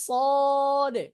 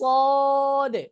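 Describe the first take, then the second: Both takes have the same delivery.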